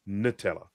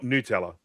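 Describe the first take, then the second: First: "Nutella" with short "nuh" first syllable; corrected "nuh-tella" pronunciation. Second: "Nutella" with long "noo" first syllable; rejected "new-tella" pronunciation. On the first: Correcting the friend's version, "nuh-TELLA" pronunciation. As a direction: say "Nutella" starting like "nut". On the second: Quoting the friend's version to reject it, "noo-TELLA" pronunciation. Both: Shown as a demonstration. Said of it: "No, not Nutella".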